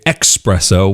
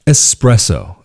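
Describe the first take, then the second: First: The word begins with an 'ex' sound, like express. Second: The word begins with a plain 'es' sound. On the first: The speaker calls it wrong. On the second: The speaker calls it right.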